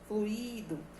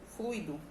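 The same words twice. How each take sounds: First: The u and i are split into two syllables. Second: The u and i form one gliding syllable. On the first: The speaker calls it wrong. "tendência popular a se pronunciar a palavra fluido com hiato" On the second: The speaker calls it right. "O correto é a pronúncia com o ditongo ui"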